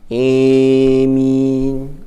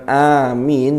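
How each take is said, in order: First: The first vowel leans toward an 'e' sound. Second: The first vowel is a clear open 'a'. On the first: "Yang imalah itu e-nya" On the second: "bacanya bukan amin"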